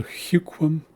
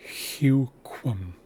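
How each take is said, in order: First: Huquum drawn out slowly; slow word demo. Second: Huquum slow with a rounded kw; slow word demo. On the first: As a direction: stretch huquum, hyu-kwum. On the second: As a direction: say huquum with a clear kw. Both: Shown as a demonstration. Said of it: "sounds more like huquum".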